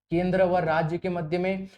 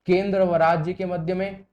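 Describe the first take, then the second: No difference in how they are said.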